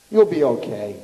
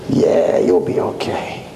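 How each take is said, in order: First: Said in the usual way. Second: Much lower, whispered sneer; mock the angel's words in a dark hiss; mocking Satan. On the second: Satan mocks Chaim with a much lower whispered sneer.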